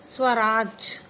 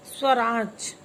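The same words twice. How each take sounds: First: स्वराज said again louder, deliberate and crisp; louder model pronunciation. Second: स्वराज said slowly and clearly, each sound crisp; loud teacher model of स्वराज; model pronunciation. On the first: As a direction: repeat स्वराज firmly for the class. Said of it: "फिर से बोलिए". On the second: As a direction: pronounce स्वराज carefully for the class to repeat. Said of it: "चलिए मेरे साथ बोलिए". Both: Shown as a demonstration.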